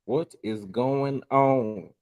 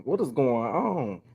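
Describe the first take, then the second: First: What is going on stretched very slow; very slow disbelief. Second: Drawn-out, puzzled what is going on; slow puzzled question. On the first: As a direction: drag out each word in disbelief. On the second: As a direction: ask it slowly, baffled. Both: Shown as a demonstration.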